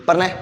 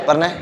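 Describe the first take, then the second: No difference in how they are said.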